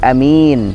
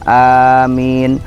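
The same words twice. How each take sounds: First: The first vowel is short, the second long. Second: Both vowels are drawn out long. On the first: Safe. "kalau A-nya pendek adalah aman" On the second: Grant our request. "A-nya panjang, min-nya panjang"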